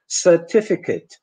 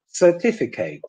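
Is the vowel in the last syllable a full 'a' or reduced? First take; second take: reduced; full a. First: The last syllable has a short reduced vowel. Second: The last syllable has a full 'a' vowel. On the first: The speaker calls it right. "the correct English pronunciation" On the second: The speaker calls it wrong. "you end up only having a foreign accent"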